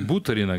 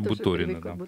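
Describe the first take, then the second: First: The stress is not on the second syllable. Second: The stress is on the second syllable. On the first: This is how the speaker would naturally say it. The speaker calls it wrong. "вот я хочу Буторина говорить" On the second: This is how the name must be said. The speaker calls it right. "но вот приходится Буторина"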